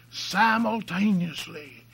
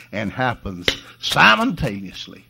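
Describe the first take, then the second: First: Simultaneously, high and slow; emphatic repeat. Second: Said in the usual way. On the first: Real, not acted. Preacher hammers home the word Simultaneously, high and slow.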